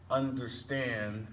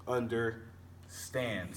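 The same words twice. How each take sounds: First: "understand" said slowly, landing on "stand"; stress on last syllable. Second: "Understand" very slowly, pausing before "stand"; broken before stressed syllable. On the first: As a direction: stretch "understand" toward a stressed final "stand". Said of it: "followed by one stressed syllable word". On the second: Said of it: "Stand would be the stressed part". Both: Shown as a demonstration.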